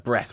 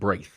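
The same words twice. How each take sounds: First: It is said the ordinary present-day way. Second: It is said with a different, older vowel. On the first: This is the present-day pronunciation. "breath was" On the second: This is the older Middle English pronunciation. "more like breath"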